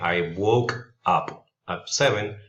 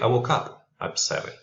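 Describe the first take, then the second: First: The words are said separately, not linked. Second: The K sound links into the next vowel. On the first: The speaker calls it wrong. "instead of saying" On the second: The speaker calls it right. "linking consonant sounds with the next vowel sound"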